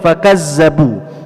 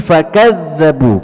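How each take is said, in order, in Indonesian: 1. Huruf tengahnya adalah bunyi z yang berdengung. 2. Huruf tengahnya adalah bunyi th bersuara. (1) "tidak boleh dibaca"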